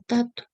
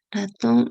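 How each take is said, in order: First: The final n is dropped, starting with t. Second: The word is said in full with final n. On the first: This is a child's simplified form. "o tato" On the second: This is the adult form of the word. "en vez de decir ratón"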